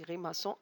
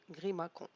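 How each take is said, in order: First: The middle consonant is a soft S sound. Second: The middle consonant is a hard K sound. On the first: The speaker calls it right. "on dit grimaçon avec la cédille" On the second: The speaker calls it wrong. "Si on ne met pas la cédille, donc on va prononcer"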